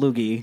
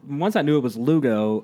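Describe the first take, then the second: First: The name ends with an 'ee' sound. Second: The name ends with an 'oh' sound. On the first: The speaker calls it wrong. "I thought your name was pronounced like Loogie" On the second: The speaker calls it right. "once I knew it was Lugo"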